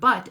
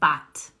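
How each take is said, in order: First: The vowel is a short central uh sound. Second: The vowel is an open ah sound. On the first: The speaker calls it right. "the word but" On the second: The speaker calls it wrong. "they say ah"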